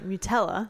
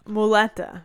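First: A t sound follows the first vowel. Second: An l sound follows the first vowel. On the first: The speaker calls it wrong. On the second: The speaker calls it right.

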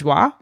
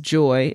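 First: The name sounds like the French word joie. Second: The name sounds like the English word joy. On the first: "I've also seen this pronounced as Joie" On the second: "I believe the name is Joy"

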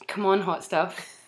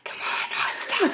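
First: It is said in a normal voice. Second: It is said in a throaty whisper.

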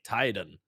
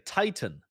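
First: The middle consonant sounds like a d. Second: The middle consonant is a crisp t sound. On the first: "like with a duh" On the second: "Like in English, you would say Titan"

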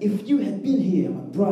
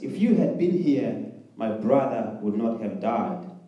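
First: It is shouted loudly, like a scream. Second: It is read in a calm, normal way.

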